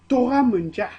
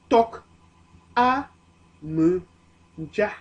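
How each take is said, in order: First: The first word is linked smoothly together. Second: It is said slowly with the parts separated. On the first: "la liaison donne Tora"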